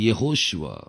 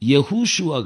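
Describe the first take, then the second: First: The second vowel is a long o sound. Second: The second vowel is a long u sound. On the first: The speaker calls it right. "அது யெகோஷுவா" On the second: The speaker calls it wrong. "யெகூஷுவா கிடையாது"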